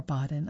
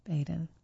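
First: Baden said BAH-den; open A in Baden. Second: Baden said BAY-den; long A in Baden. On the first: Reader offering another guess at the town's name, Baden as BAH-den. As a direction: say Baden with a first syllable like bah. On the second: Reader unsure of the town's name, Baden as BAY-den. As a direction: say Baden with a first syllable like bay. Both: Shown as a demonstration. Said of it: "I'm not sure how to pronounce it".

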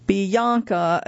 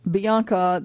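First: Put-on Bianca in an Australian accent, vowels stretched; her own pronunciation. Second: Said in the usual way. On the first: Narrator shows how she says her own name, Bianca with elongated vowels. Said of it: "as she pronounces her own name".

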